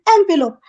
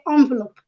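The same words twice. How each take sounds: First: The first syllable sounds like 'en'. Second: The first syllable sounds like 'on'. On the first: The speaker calls it right. "It is envelope" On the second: The speaker calls it wrong. "The French pronunciation is on"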